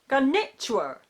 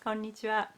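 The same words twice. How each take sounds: First: One syllable is given strong stress. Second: No syllable is given strong stress. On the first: The speaker calls it wrong. "We don't say" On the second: The speaker calls it right. "We just say konnichiwa"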